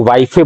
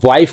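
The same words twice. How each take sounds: First: वाइफे, wife with an extra "ay" sounded on the end; mispronounced wife. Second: Said in the usual way. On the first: Shown as a demonstration. Teacher showing students how some people say it, mispronounced वाइफे. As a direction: say वाइफे in two syllables, "wai-fay". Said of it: "कुछ लोग वाइफे बोल देते हैं". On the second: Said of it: "वाइफ को कुछ लोग वाइफे बोल देते हैं".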